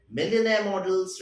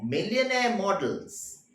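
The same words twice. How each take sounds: First: Millionaire models read out once at normal pace; just read the line Millionaire models; read as a quote. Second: Millionaire models slowed, Millionaire stressed with a falling close; slow emphasis. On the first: Teacher reading the story's key line, plainly. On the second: Teacher explaining the key line to students, slow and emphatic. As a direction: lean on Millionaire and draw the phrase out. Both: Shown as a demonstration. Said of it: "This is a very significant line".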